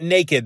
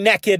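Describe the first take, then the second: First: The first vowel is long, like 'nay'. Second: The first vowel is short, like 'neck'. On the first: "and not naked" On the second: "I'm saying naked"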